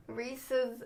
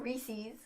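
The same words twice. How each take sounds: First: Reese's with a short second vowel; Reese's ending like pieces; Reese's as REE-siz. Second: Reese's with a long ee ending; Reese's rhyming with breezies; Reese's as REE-seez. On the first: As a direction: softly say Reese's as REE-suhz. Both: Shown as a demonstration. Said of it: "Not Reese's".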